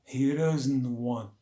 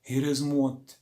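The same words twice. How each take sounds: First: The phrase is said slowly and deliberately. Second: The phrase is said at normal conversational speed.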